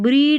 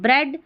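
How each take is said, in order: First: The vowel is a long 'ee' sound. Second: The vowel is a short 'e' sound. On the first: The speaker calls it wrong. "ऐसे नहीं बोल रहे हैं" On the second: The speaker calls it right. "यहाँ पर ए पढ़ेंगे"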